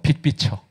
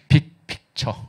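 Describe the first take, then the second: First: The phrase is pronounced loosely and unclearly. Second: The phrase is pronounced clearly and carefully. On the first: The speaker calls it wrong. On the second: The speaker calls it right.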